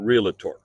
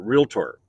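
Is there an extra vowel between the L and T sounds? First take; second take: yes; no. First: An extra vowel is added between L and T. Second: No extra vowel is added between L and T. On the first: The speaker calls it wrong. "you don't go to see the docator, right? You know, so it's not realtor" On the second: The speaker calls it right. "you pronounce it realtor"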